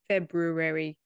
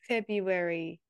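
First: The first r sound is pronounced. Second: The first r sound is dropped. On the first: This is the way Australians avoid. "Why don't we say it February?" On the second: This is the everyday Australian way. "why do we say February?"

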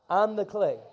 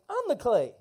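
First: It is said plainly, without added attitude. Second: It is said with confident, playful swagger. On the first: The speaker calls it wrong. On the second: The speaker calls it right.

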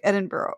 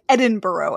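First: The final syllable is swallowed and reduced. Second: The final syllable is pronounced fully. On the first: "It's just kind of burying the bruh" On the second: "I say like Edinburgh"

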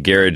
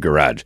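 First: The word has the Scottish-influenced pronunciation. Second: The word has the standard pronunciation. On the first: This is how the speaker personally says it. "why I say garage" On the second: This is the usual way others say it. "instead of garage"

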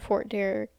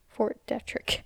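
First: The name is said without a t before r. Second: The name is said with a t before r. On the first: The speaker calls it wrong. "I think I'm pronouncing that wrong" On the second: The speaker calls it right. "I just realized there's a T in it"

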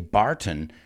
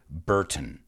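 First: The first vowel is an open 'ah' sound. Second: The first vowel is an 'er' sound. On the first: The speaker calls it wrong. "we don't say Barton" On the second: The speaker calls it right. "we say Burton"

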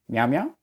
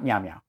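First: It sounds like checking everyone is following. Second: It sounds like moving on regardless of listeners.

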